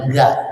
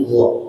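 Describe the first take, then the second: First: "ga" with open, spread lips; wrong flattened ghain. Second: "gha" throaty, lips rounded toward an o; correct rounded ghain. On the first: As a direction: say "ga" with an unrounded vowel. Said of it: "bukan ga". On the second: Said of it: "tapi gha". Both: Shown as a demonstration.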